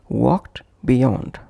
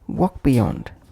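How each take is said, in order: First: The t sound after walk is heard. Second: The t sound after walk is dropped. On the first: "pronounced as walked beyond" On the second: "would become walk beyond"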